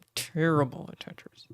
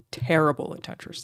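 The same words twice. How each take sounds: First: Breathy conspiratorial whisper, no voice. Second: Said in the usual way. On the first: Shown as a demonstration. Streamer admits to chat a second time, whispering. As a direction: whisper it like a confession.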